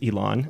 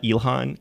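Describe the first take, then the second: First: The name is said without an h sound. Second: The name is said with an h sound. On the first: The speaker calls it right. "my name is Elon" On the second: The speaker calls it wrong. "not Ilhan"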